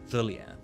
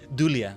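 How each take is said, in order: First: The name begins with a TH sound. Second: The name begins with a D sound. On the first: The speaker calls it wrong. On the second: The speaker calls it right.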